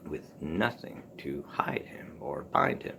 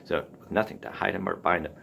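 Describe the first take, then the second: First: "with nothing to hide him or bind him" slow and whispered, leaning on "bind"; slow whispered reading. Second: Said in the usual way. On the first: Shown as a demonstration. Teacher rereading the Morrison line to show its rhythm, slow whisper. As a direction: breathe the line out slowly to let the rhythm show. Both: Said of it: "So you have the Anapest just crops up".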